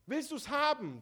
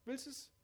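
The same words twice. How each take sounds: First: Higher and louder, pressing appeal; urgent question. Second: Higher but softer, gently asked; soft repeat. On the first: Preacher pressing the listener to accept the gift. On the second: Preacher gently repeating the question to the listener. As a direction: ask again quietly and personally. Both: Shown as a demonstration. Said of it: "Das ist die Frage".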